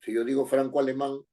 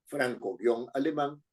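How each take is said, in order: First: Said in the usual way. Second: Franco-alemán said very slowly, both parts clearly apart; slow franco-alemán right down for dictation; slow repeat. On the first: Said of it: "teacher gives the example". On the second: Shown as a demonstration. Teacher repeating franco-alemán slowly for students to write. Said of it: "teacher repeats the example".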